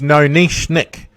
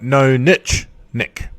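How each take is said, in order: First: It is said in the speaker's own accent. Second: It is said the North American way. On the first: The speaker calls it right. "the title of my um, of my podcast is" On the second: The speaker calls it wrong. "for those in uh, in North America, of course, you would call it"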